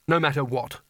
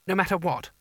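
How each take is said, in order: First: Said in the usual way. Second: Uncertain. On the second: A narrator's reading. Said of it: "said Coin uncertainly".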